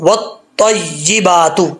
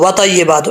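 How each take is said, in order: First: The t sound is held and doubled. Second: The t sound is short and single. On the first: The speaker calls it right. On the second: The speaker calls it wrong.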